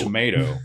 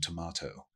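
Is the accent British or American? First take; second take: American; British. First: It is said in an American accent. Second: It is said in a British accent.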